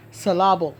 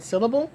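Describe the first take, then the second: First: "syllable" stressed on the second syllable, suh-LAB-ul; mispronounced syllable. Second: Said in the usual way. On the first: Shown as a demonstration. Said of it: "mispronounce the word syllable". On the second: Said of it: "putting the emphasis on the wrong letter".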